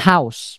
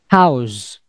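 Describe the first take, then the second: First: The word ends with an s sound. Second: The word ends with a z sound. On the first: The speaker calls it wrong. "bukan house, bukan make S" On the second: The speaker calls it right. "tapi makainya Z"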